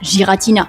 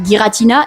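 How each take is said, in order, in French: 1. Le nom commence par un J doux. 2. Le nom commence par un G dur. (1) "et non pas Giratina" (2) "confirme qu'il s'appelle bel et bien Giratina"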